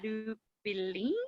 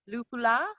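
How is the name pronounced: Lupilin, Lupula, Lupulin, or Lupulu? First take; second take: Lupilin; Lupula. First: The name is said as Lupilin, with -pi- inside. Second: The name is said as Lupula, ending in -la.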